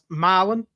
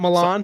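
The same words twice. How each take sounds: First: It is said the local Tennessee way. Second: It is said the Italian way. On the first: This names the city in Tennessee. The speaker calls it right. "It's pronounced Milan" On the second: This names the famous city in Italy. The speaker calls it wrong.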